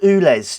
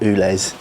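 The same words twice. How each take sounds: First: The word begins with a plain 'oo' sound. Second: The word begins with a 'you' sound. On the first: The speaker calls it wrong. "I've been saying it like the wee oo" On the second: The speaker calls it right. "I'm going to call it U L E Z"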